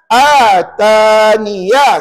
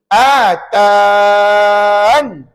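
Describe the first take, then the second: First: The word ends with a full niya sound. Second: The word ends on a bare n sound. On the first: The word runs on into the next word. "kekalkan huruf ya itu dan baca dengan baris satu di atas" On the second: The word is read with a stop at its end. "kita buang ya dan kita baca begini"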